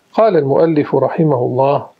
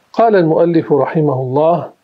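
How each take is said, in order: No difference in how they are said.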